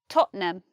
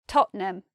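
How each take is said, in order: Both takes have the same delivery.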